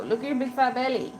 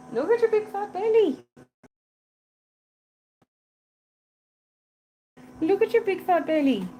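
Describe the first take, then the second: First: Said in the usual way. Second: Belly said much higher, cooing to the cat. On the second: Real, not acted. Keeper teases the cat about her belly, high cooing baby talk.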